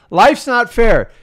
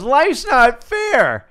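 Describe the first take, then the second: First: Slow, loud, every word punched; emphatic statement. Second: Mocking a complainer, higher and drawn out; whiny complainer. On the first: Shown as a demonstration. Telling listeners the hard truth, slow and loud. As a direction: lay it down as hard fact, slowly. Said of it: "Dude, it's life". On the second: Mimicking people who complain, mock whine. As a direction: parody someone moaning, stretched out slowly. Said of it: "Do you ever have someone goes".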